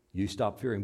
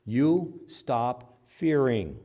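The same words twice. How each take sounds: First: Said in the usual way. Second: You stop fearing said very slow and weighty; stretched You stop fearing; slow stressed command. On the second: Acted. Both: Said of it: "Fear not".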